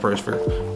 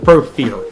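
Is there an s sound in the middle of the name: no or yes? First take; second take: yes; no. First: The name has an s sound before the f. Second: The name has no s sound before the f. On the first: The speaker calls it wrong. "I've been saying it wrong all fucking day" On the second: The speaker calls it right. "The Profere, not a Prosphere"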